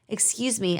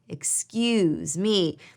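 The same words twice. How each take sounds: First: Said plainly, without a drawn-out 'excuse'. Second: 'Excuse' is drawn out and 'me' is stressed. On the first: It politely interrupts a conversation. "a way to politely interrupt" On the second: It points out a social faux pas. "you elongate the excuse and you place an emphasis on the me"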